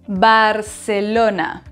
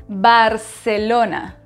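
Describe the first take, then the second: The two takes are said the same way.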